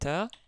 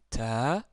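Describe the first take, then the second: First: The vowel is short. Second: The vowel is long. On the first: "la fatha avec la lettre ba. Ici, ça nous donne ta" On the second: "Si on rajoute euh, la voyelle longue alif"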